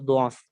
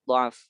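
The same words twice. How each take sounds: First: The first vowel is a rounded 'u' sound. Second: The first vowel is an open 'a' sound. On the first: "membacanya dengan dengan dhammah" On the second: "dalam rasmnya ditulis dengan fathah"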